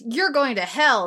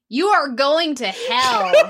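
First: It is said in her ordinary speaking voice. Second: It is said in a put-on character accent.

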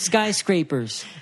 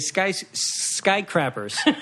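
First: The word has an s before the scrapers part. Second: The s sound before crappers is missing. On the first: The speaker calls it right. "Mom, it's skyscrapers" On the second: The speaker calls it wrong. "she would say skycrappers"

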